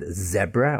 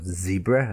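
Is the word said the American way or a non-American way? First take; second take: non-American; American. First: The word is said in a non-American way. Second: The word is said the American way.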